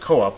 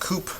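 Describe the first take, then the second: First: The vowels are split across two syllables. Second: The vowels merge into one syllable. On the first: "pronounce it co-op with a hiatus there" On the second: "It looks like coop"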